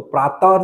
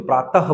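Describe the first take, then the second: First: प्रातः as praa-taa, no final h; dropped visarga. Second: प्रातः as praa-ta-ha, h clearly heard; sounded visarga. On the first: Teacher shows students what not to say, प्रातः without its h. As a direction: end प्रातः on an open long aa, leaving out the h. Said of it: "तो प्रातः नहीं बोलते". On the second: Teacher corrects to how it is said, प्रातः with sounded h. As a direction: finish प्रातः on an audible breath of ha. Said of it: "प्रातः बोलते हैं". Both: Shown as a demonstration.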